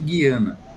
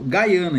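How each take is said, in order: First: The first syllable sounds like 'ghee'. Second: The first syllable sounds like 'guy'. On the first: This is how people in Brazil say the name. "A gente no Brasil, eu pronuncio Guiana" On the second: This is how people there say the name. "Lá eles pronunciam Gaiana"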